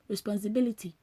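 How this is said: It is said in the speaker's native dialect. "In my native dialect, you say"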